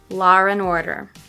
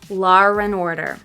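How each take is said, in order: First: The vowel flows into and without r. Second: An r sound joins law and and. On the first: "linking them but not using the intrusive R" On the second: "second with the intrusive R between them"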